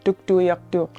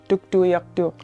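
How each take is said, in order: First: The name is pronounced the Inuvialuktun way. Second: The name is pronounced the Inuvialuktun way.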